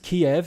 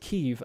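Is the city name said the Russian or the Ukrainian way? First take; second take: Russian; Ukrainian. First: The name is said the Russian way, Kiev. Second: The name is said the Ukrainian way, Kyiv. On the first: This is the older form used in English. "that was the Russian pronunciation" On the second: This is the form people now ask for. "people are asking to pronounce it Kiev"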